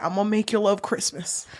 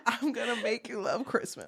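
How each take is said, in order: First: [name] voice. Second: Said in the usual way. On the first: Pretend. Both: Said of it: "Sorry, I'm [name]".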